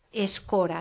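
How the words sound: The first vowel sounds like E. "i no escora"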